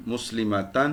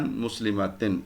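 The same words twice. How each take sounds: First: مسلمتن ending in "tan", short "ma"; softer "muslimatan" for مسلمتن; teacher's recited مسلمتن with final "tan"; an case ending. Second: مسلمتن ending in "tin", short "ma"; lower, softer "muslimatin" for مسلمتن; teacher's recited مسلمتن with final "tin"; in case ending. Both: Shown as a demonstration. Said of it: "یہ آپ کی واحد کی ہوگی".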